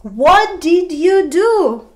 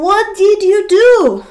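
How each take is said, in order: First: Slow, "do" still stressed; repeated model question. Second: Higher, louder and slow, "do" stressed; model question. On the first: Teacher repeating for students, "do" stressed. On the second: Teacher modeling for students, stressing "do". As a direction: ask it clearly, landing on "do". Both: Shown as a demonstration. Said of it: "For example".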